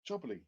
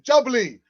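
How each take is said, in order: First: Jubbly said low and quiet to himself; murmured. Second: Jubbly called out loud and high; excited shout. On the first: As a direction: murmur Jubbly under his breath. Quiet murmur of drink name. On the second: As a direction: cry Jubbly out in delight. Thrilled shout of drink name. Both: Real, not acted.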